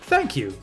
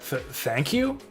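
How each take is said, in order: First: It sounds cheerful and sure, without stuttering. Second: It sounds hesitant and unsure, stuttering.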